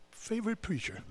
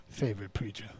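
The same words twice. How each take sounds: First: Favorite preacher with higher pitch, softer, sing-song; mocking lilt. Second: Favorite preacher lower, soft, rising end; low echo. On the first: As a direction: tease favorite preacher lightly. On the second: Acted. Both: Mocking repeat of phrase.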